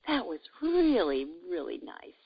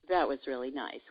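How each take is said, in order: First: It is said with heartfelt warmth. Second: It is said in a neutral way.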